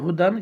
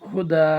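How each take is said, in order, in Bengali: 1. শব্দটি চূড়ান্ত 'n' ধ্বনি দিয়ে শেষ হয়। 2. শব্দটি দীর্ঘ 'a' স্বরধ্বনি দিয়ে শেষ হয়। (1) "হয় হুদান" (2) "ওয়াকফ থাকার কারণে এইভাবে বলবেন হুদা"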